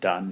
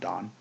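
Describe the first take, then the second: First: The vowel sounds like the one in 'fun'. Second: The vowel sounds like the one in 'on'. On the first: The speaker calls it right. "you actually pronounce it Dunn" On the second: The speaker calls it wrong. "not Don"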